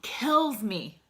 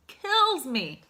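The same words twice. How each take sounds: First: Said in the usual way. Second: Kills pushed much higher and louder, falling hard on me; emphatic repeat. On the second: Real, not acted. Son telling viewers about his father, Kills stressed high and loud. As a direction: hit Kills again with rising anguish. Grief over father's decline.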